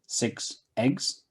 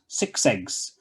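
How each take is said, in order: First: The two words are said separately. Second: The s is linked onto the next word.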